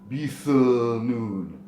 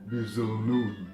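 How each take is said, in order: First: The doubled letter is said as a thick th. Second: The doubled letter is said as a thick z. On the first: This is how it is heard in recitations. "in this case ... it is a th" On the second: This is the pronunciation used in some dialects. "sometimes it's also pronounced as a very thick Z sound"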